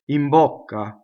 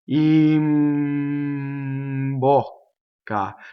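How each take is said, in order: First: The phrase is said quickly at normal speed. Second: The phrase is said slowly, sounds held long. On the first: "If I were to say these two words together, you would get this" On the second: "I'll do it in slow motion"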